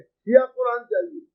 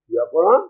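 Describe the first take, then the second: First: Said in the usual way. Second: Low start, rising on "Quran"; questioning echo. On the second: Retold or imitated. Quoted reply queries the request.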